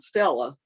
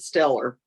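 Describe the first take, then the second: First: The name ends in a plain vowel. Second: The name ends with an r sound. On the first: This is the usual way to say the name. "which is how you would pronounce it" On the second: This is how the family said the name. "they pronounced it Stellar"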